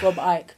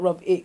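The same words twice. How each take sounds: First: The surname is said with its standard pronunciation. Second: The surname is said with a mangled pronunciation. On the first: The speaker calls it right. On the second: The speaker calls it wrong.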